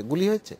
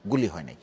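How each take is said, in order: First: "গুলি হয়েছে" lifted high as a question; rhetorical question. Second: "গুলি হয় নাই" dropped low and softer; falling answer. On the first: Panellist asking viewers about Bangkok protests, rhetorical question. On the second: Panellist answering own question on Bangkok, falling answer. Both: Real, not acted.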